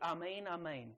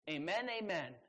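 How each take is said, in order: First: Amen is said the original Greek way. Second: Amen is said the everyday English way. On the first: The speaker calls it right. "Or to pronounce it properly, it's" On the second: The speaker calls it wrong. "We say them all the time when we pray"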